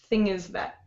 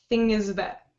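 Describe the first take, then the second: Both takes have the same delivery.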